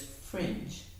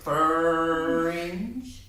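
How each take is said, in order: First: The F and R are blended with no vowel. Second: An extra vowel sound is inserted between F and R. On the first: The speaker calls it right. "Or is it just fringe?" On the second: The speaker calls it wrong. "Are we going to get that dog mouth clear out here for fringe?"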